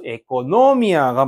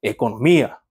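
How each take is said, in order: First: 에코노미아가 with the stress on 노. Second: 에코노미아 with the stress on 미. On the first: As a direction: draw out and punch 노 in 에코노미아가. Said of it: "원래 강세는 노". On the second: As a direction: punch 미 near the end of 에코노미아. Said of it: "여기가 강세 있는 음절이 되고". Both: Shown as a demonstration.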